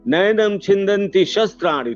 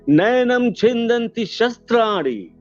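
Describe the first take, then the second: First: It is said at a lower, fuller pitch. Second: It is said at a higher, thinner pitch.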